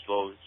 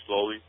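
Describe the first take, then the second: No difference in how they are said.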